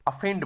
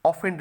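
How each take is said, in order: First: अफेंड with a short "a" at the start; correct pronunciation. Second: ऑफेंड with a rounded "o" at the start, the wrong way; wrong pronunciation. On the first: Teacher modelling the right word for students, pron. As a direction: say अफेंड, not with a long "o". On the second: Teacher showing class the wrong version, pron. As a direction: show ऑफेंड as the mistake. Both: Shown as a demonstration. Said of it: "ऑफेंड नहीं बोलेंगे".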